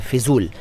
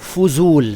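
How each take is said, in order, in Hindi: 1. पहला स्वर 'i' जैसा बोला जाता है। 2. पहला स्वर 'u' जैसा बोला जाता है। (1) "फ़िज़ूल गलत है" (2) "फ़ुज़ूल सही है"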